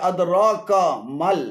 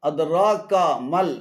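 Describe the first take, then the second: No difference in how they are said.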